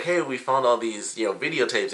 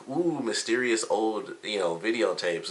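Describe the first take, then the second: First: Said in the usual way. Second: Slow, hushed, spooky-teasing tone; mock mysterious. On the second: Jean teasing about the old videotapes, mock mysterious and slow. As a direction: drag it out like a ghost story. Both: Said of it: "he does, like, this thing".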